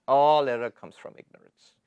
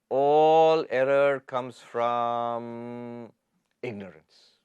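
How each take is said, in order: First: Said in the usual way. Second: Slow emphasis. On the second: Shown as a demonstration. Teacher driving home the point to students, very slow. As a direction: drag out each word, then let "ignorance" fall away.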